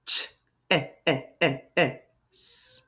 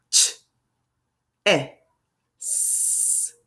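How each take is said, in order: First: "ch", four quick separate beats of "eh", hissed "s"; vowel tapped repeatedly. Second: "ch, eh, s" as three isolated sounds with long gaps, hissed "s"; word tapped out. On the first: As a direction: bounce the "eh" between "ch" and "s". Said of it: "Listen to that vowel sound". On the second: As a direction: sound out "ch", then "eh", then "s". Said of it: "let's tap it out". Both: Shown as a demonstration.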